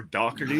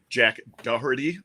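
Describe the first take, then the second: First: Doherty said another way, as "Dockerty"; alternative pronunciation. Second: Said in the usual way. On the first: Shown as a demonstration. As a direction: offer Doherty with a hard k, "DOCK-er-tee". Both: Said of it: "however you wanna pronounce it".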